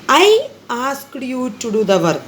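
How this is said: The stress is on I.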